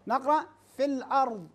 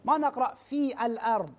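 First: "في الأرض" linked as fil-ard with the hamza dropped; right demo, hamza of "الأرض" swallowed; correct reading. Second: "في الأرض" read with the hamza of "الأرض" fully sounded; wrong demo sounding every letter of "في الأرض". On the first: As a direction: run "في" straight into "الأرض". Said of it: "هذا صحيح بالنسبة إلى صحة القراءة". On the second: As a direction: stop hard on the glottal before "الأرض". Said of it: "هذا خطأ". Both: Shown as a demonstration.

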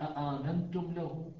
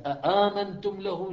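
First: Said in the usual way. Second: أآمنتم له louder and higher, each hamza drawn out; emphatic recitation. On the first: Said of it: "همزة أولى وهمزة ثانية وألف". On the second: Shown as a demonstration. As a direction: recite أآمنتم له slowly with weight, as Pharaoh's challenge. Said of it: "قال". (تلاوة مفخّمة بطيئة لـ أآمنتم له)

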